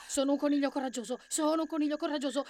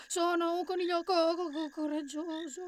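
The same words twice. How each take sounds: First: Quick, high rabbit mantra; fast, pitched-up nervous chant; self-reassuring rabbit. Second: High, shrinking, stuttering rabbit; fearful stammer. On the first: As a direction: rattle it off to keep up courage. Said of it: "e si ripeteva". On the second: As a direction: let the courage falter on "coraggioso". Courage fails in the repetition. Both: A narrator's reading.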